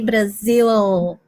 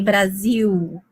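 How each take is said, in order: First: The word ends with a clear L sound. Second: The word ends with a U-like vowel sound. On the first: "we don't say Brazil" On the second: "L sounds like a U. ... we do the U. ... we say Brazil"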